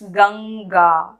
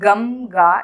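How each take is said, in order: First: The nasal before the g is an ng sound. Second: The nasal before the g is an m sound. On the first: The speaker calls it right. "it's Ganga" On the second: The speaker calls it wrong. "It's not Gamga"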